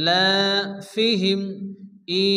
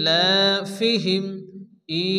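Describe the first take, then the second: No difference in how they are said.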